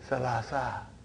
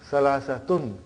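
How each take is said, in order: First: The word stops short on a final -a. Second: The word ends with a full -tun ending. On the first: This is how it is said when pronounced alone. "in pronunciation we will say salasa" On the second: This is the full grammatical form with tanween. "that is why you have salasatun"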